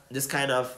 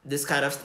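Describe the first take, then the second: No difference in how they are said.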